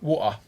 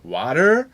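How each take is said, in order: First: It is said in a stronger British accent. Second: It is said in a stronger American accent. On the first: "manche sogar Woa" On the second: "manche sogar Water"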